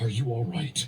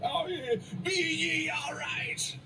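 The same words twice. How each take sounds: First: Said in the usual way. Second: High, drawn-out hail from a ship; mock sailor's shout. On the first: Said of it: "with the most worried expression". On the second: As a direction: call down slowly like a hammed-up sea captain. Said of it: "shouted down from the gangplank".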